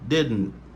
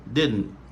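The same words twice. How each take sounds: No difference in how they are said.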